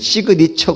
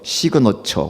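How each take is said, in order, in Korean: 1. 가운데 모음은 'ee'처럼 소리 나요. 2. 가운데 모음은 'uh'처럼 소리 나요. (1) "원래 우리는 시그니처 그러는데" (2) "제가 발음 겨보니까 시그너처라고 돼 있어요"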